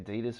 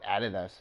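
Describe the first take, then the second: First: The name is said the American way. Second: The name is said the Australian way. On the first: "that's how you Americans pronounce it" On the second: "We call it Adidas here in Australia"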